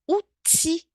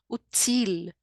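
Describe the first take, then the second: First: The word ends on the vowel, no L. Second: The word ends with an audible L sound. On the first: The speaker calls it right. "é só uti, porque ele termina no i" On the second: The speaker calls it wrong. "Não é assim"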